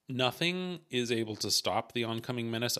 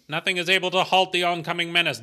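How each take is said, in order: First: It is said in a plain speaking voice. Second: It is said in a radio announcer voice.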